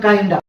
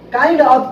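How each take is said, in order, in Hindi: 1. शब्द मिलकर एक संक्षिप्त 'kinda' बन जाते हैं। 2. दो अलग शब्द, साफ़ 'of' के साथ। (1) "काइंडा यूज करेंगे" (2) "काइंड ऑफ को जोड़कर ज्वाइन करके"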